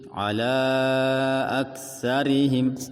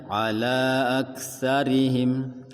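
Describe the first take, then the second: First: The vowel of ala is held longer. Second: The vowel of ala is held briefly.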